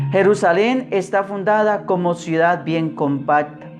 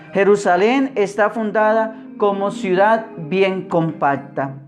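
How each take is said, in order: Both takes have the same delivery.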